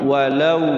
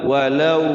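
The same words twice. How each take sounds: No difference in how they are said.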